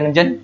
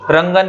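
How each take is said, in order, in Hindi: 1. बीच का व्यंजन 'j' की आवाज़ है। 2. बीच का व्यंजन कड़ी 'g' आवाज़ है। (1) "जे आना चाहिए था, रंजन ही बोल लेता हूं मैं" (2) "आगे रंगन रंगन बोलेंगे"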